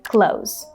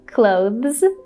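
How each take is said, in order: First: The th is dropped, ending in plain z. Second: A th sound comes before the final z. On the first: "just like the word close the door" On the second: "you have to say the and then z"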